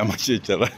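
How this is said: The s sounds are said as ts and tsy. "Hapon kasi yung pronunciation kaya magtsatsyara"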